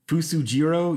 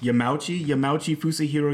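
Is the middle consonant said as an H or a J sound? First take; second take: J sound; H sound. First: The middle consonant is a J sound. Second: The middle consonant is an H sound. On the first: "I said Fusajiro at first"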